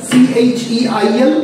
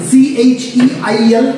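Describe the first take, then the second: Both takes have the same delivery.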